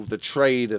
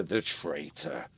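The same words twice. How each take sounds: First: Said in the usual way. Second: "traitor" slow, low and soft, a dark correction of "trader"; ominous correction. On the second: Shown as a demonstration. Narrator reveals the uncle is a traitor, slow and low.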